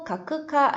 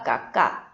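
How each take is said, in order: First: A full 'ku' syllable is said in the middle. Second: A doubled consonant replaces the middle syllable. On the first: The speaker calls it wrong. "가크카 아니라" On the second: The speaker calls it right. "쿠 플러스 카행은 으카"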